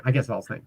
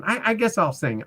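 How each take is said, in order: First: Said in the usual way. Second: Mimicking the lady's reluctant sigh, pitched higher; mock her grudging give-in, lifted up high; the retired pro finally agreeing to sing, grudgingly; grudging singer. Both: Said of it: "She's up there going".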